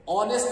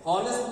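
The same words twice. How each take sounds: First: "ऑनेस्ट" without any h; correct pronunciation. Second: "हॉनेस्ट" with a sounded h, pitched high; wrong pronunciation. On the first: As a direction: open "ऑनेस्ट" right on the vowel. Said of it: "ऑनेस्ट बोलते हैं". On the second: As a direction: start "हॉनेस्ट" on a clear h. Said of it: "हॉनेस्ट नहीं बोलते हैं". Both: Shown as a demonstration.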